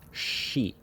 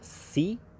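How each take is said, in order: First: The syllable begins with an sh sound. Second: The syllable begins with a plain s sound. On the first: The speaker calls it right. "it's pronounced she" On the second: The speaker calls it wrong. "it's not pronounced si"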